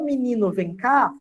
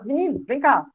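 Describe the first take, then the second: First: The final vowel of menino is fully pronounced. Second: The final vowel of menino is dropped. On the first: "em vez de falar" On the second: "tem gente que fala já"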